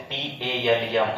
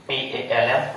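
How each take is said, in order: Both takes have the same delivery.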